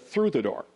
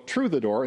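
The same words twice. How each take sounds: First: The first word starts with a TH sound. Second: The first word starts with a plain T sound. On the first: The speaker pronounces English in the standard American way. The speaker calls it right. "instead of" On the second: The speaker cannot pronounce the TH sound. The speaker calls it wrong. "People look at TH and just say T"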